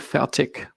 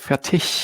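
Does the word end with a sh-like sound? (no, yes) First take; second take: no; yes. First: The word ends without a sh-like sound. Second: The word ends with a soft sh-like sound. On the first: This is the regional dialect way of saying it. The speaker calls it wrong. "I say fertig" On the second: This is the standard German way of saying it. The speaker calls it right. "in proper German it's called fertig with a sh sound at the end"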